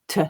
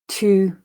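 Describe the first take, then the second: First: The vowel is reduced to a schwa. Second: The vowel is full and unreduced. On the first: "weak form"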